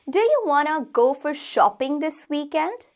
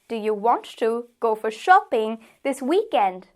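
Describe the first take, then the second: First: Want to is contracted into wanna. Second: Want to is said as two full words.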